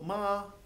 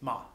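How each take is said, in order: First: The pitch stays high and level. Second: The pitch falls sharply in a short syllable. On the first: "a high flat tone" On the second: "very short and abrupt and a falling tone"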